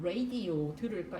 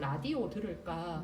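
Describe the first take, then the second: First: Radio is said with English-like pronunciation. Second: Radio is said with Korean pronunciation. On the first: "이렇게 안 하고" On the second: "이렇게 해야 되지만"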